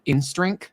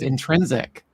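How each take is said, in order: First: The word has two syllables and no final c. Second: The word has three syllables ending in -sic. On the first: The speaker calls it wrong. "he would always talk about InStrink" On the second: The speaker calls it right. "Until I realized it was intrinsic"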